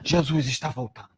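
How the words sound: It is said in a grim, frightening tone. The return is a tragedy to fear. The speaker calls it wrong. "como uma tragédia, como algo terrível"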